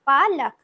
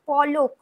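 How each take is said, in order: First: The first vowel is an open 'a' sound. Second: The first vowel is a rounded 'o' sound. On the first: This is the Hindi pronunciation. "হিন্দিতে হবে পালক" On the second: This is the Bengali pronunciation. "এটা আমরা বাংলায় বলছি"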